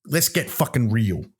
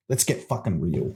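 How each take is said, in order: First: Said in the usual way. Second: Lower, softer, put-on husky repeat; mock sultry. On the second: Host repeating himself low, cohost calls it kinky, mock sultry. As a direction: drop it low and soft, teasing. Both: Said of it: "Oh, kinky".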